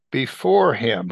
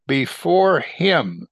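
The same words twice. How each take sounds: First: Said in the usual way. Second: Before him stretched very slow; drawn-out emphasis. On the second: Shown as a demonstration. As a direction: draw out before him, savouring it.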